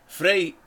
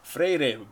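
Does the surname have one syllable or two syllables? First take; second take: one; two. First: The surname is said as one syllable. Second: The surname is said as two syllables. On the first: The speaker calls it wrong. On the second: The speaker calls it right.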